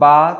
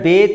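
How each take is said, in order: First: The letter name ends in an open 'a' vowel. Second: The letter name ends in an 'e' vowel. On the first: This is the Arabic way of naming the letter. "बा, ता, सा ये सब पढ़ रहे हैं तो इसका मतलब ये है कि हम अरबी पढ़ रहे हैं" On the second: This is the Urdu way of naming the letter. "बे, ते, से पढ़ रहे हैं इसका मतलब ये है कि हम उर्दू पढ़ रहे हैं"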